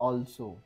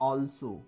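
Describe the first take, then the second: No difference in how they are said.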